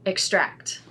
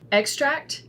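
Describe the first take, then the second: First: The stress is on the second syllable. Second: The stress is on the first syllable. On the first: It is used as a verb. "with the verbs, the emphasis is not on the first" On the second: It is used as a noun. "for most of these nouns is on the first syllable"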